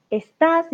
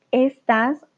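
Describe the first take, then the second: First: "Estas" said as es-TÁS, stress on the last syllable, pitched higher; estás with accent. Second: "estas" with the stress on the first syllable, ES-tas; estas without accent. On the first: Teacher explaining the verb to Clady: "Estas" as es-TÁS. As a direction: hit the end of "Estas": es-TÁS, the verb form. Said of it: "ist du bist". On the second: Teacher to Clady: "estas" stressed ES-tas. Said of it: "ohne Akzent". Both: Shown as a demonstration.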